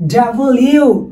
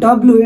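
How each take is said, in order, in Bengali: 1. নামটি পুরোটা বলা হয়, দুটি শব্দে। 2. নামটি ছোট করে এক সংক্ষিপ্ত ধ্বনিতে বলা হয়। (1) "এটা হবে ডাবল ইউ" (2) "it's not ডব্লু"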